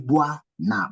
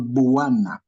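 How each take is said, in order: First: The opening is glided together as one syllable. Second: The opening is split into separate syllables. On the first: The speaker calls it right. "You say Buana ... it becomes as one syllable" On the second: The speaker calls it wrong. "or Buwana"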